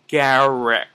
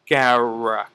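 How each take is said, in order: No difference in how they are said.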